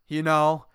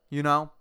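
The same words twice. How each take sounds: No difference in how they are said.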